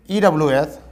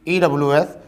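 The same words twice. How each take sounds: The two takes are said the same way.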